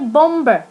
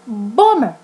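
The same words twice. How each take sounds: First: The middle B sound is pronounced. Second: The middle B sound is silent. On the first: The speaker calls it wrong. "We don't say bomber" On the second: The speaker calls it right. "We say bomber"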